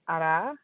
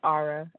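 First: The name is said in its original pronunciation. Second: The name is said the way Americans say it. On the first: "my first name is Arah" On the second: "as most Americans pronounce it"

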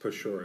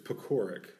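First: The middle consonant is said soft. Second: The middle consonant is said hard. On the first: The speaker calls it right. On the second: The speaker calls it wrong. "I was saying my last name wrong the whole time"

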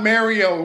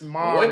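First: The first part sounds like the name Mary. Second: The first part does not sound like Mary. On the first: The speaker calls it wrong. "It's not Mario. We're not marrying Mary" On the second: The speaker calls it right. "It's not Mary. It's Mario"

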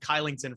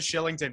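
First: The name begins with a k sound. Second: The name begins with an sh sound. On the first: The speaker calls it wrong. "I was calling him Kylington for the longest time" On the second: The speaker calls it right. "I should have looked back to Shillington"

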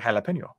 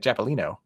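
First: It is said the way Texans pronounce it. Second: It is said the way Arkansans pronounce it. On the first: The speaker calls it right. "I'm from Texas. We say jalapeno" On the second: The speaker calls it wrong. "We don't say Japolino. ... that is how they said jalapenos"

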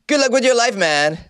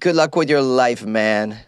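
First: It is said with more energy and gusto. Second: It is said with little energy. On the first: The speaker calls it right. "It's a little better" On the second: The speaker calls it wrong. "I didn't say that with the amount of gusto that I usually say"

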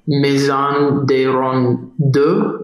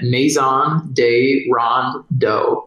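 First: The name is said with a French accent. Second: The name is said with an American accent. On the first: "I think that's how you say it in French" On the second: "I'm just going to say it in a classic American accent"

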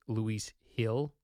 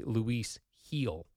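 First: The surname has a short vowel, like hill. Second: The surname has a long vowel, like heel. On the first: The speaker calls it wrong. "I was saying it's Luis Hill" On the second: The speaker calls it right. "It's actually Luis heel, like Achilles heel"

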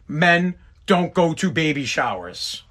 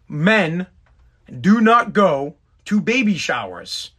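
First: It is said at a normal pace. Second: It is said slowly and deliberately.

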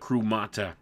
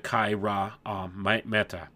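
First: The word begins with a single 'kroo' syllable. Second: The word begins with two syllables, 'kai-ra'. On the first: The speaker calls it wrong. "I pronounced that wrong" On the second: The speaker calls it right. "the proper pronunciation, which would be Kaira Meta"

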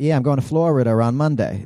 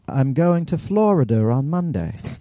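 First: It is said in a Boston accent. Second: It is said in a British accent.

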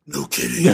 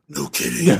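First: It is said in an imitation Batman voice. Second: The same.

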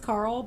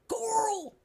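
First: The name is said in a plain, neutral accent. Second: The name is said in a heavy southern drawl. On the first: "How his name is Carl" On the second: "he's got a stiff southern accent, and instead he'll be like"

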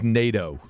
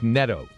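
First: The first vowel is a long A sound. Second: The first vowel is a short E sound. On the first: This is how the pronunciation guide gives it. "on the pronunciation guide it says NATO, like the North Atlantic Treaty Organization" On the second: This is how the player is heard saying it. "what I heard him say was Neto"

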